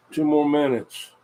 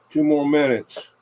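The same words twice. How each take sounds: The two takes are said the same way.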